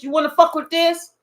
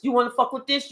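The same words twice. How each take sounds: First: "fuck" pushed higher and louder in the repeat; louder, emphatic repeat of the dare; stressed challenge. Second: Said in the usual way. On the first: Retold or imitated. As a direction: lean hard on "fuck" the second time.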